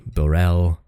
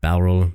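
First: "Borel" said bo-REL, with a long o like "bore"; a second attempt, "Borel" with a long o; retrying the name as Borel. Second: "Baurel" said BOW-rel, with the first syllable rhyming with "now"; a tentative first try at "Baurel", BOW-rel; trying the name Baurel. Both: Shown as a demonstration. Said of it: "I don't know how to say that name".

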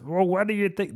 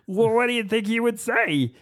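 First: Said in the usual way. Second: High, strained director's voice, far higher than his own; Irvin Kershner impression. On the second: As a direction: squeeze the voice up into a director asking a question. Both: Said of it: "That's how he talks".

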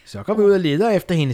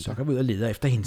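First: High, louder witch call. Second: Faster witch voice. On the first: Witch Dumme urges the others to search. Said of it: "sagde dumme". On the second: Witch Dumme repeats the search call, faster. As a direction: rattle it off lightly as a witch. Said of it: "noget mere veksling mellem dumme". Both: Acted.

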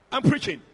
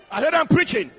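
First: Said in the usual way. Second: Louder, insistent repeat to the room. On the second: Real, not acted. Preacher demanding the congregation's attention, insistent. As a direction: press the point home with raised voice.

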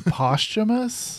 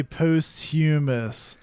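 First: "posthumous" said PAHS-tuh-mus, stress on the first syllable; "posthumous" as PAHS-tuh-mus, no "hyoo" sound; correct pronunciation. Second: "posthumous" said post-HYOO-mus, the "hyoo" drawn out; "posthumous" as post-HYOO-mus, deliberately odd; mocking pronunciation. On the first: Shown as a demonstration. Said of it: "I've never heard someone say posthumous". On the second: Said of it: "putting the emphasis on the wrong syllable".

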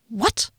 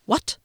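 First: What with a sharp upward rise; rising disbelief. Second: Said in the usual way. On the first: A narrator's reading. Rickenbacker asks again in rising incredulous disbelief.

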